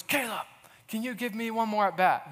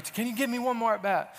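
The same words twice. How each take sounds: First: Mock-intense coach, pitched up. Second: Higher, pleading coach voice; intense coach. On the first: Little League coach begging the boy to bat, intense. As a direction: lean in hard like a pleading coach. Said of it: "Like, very intense". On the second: Retold or imitated. Coach repeating his plea, intense. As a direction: press him for one more try. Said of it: "But he's really".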